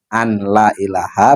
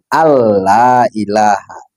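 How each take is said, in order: First: The n is pronounced clearly before the l. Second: The n merges into a doubled l sound. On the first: The speaker calls it wrong. "kalau dibaca an, an la ilaha, maka ada idgham di situ yang hilang" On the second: The speaker calls it right. "ada dengungnya kan di situ, maka dibacanya kan Allah ilaha"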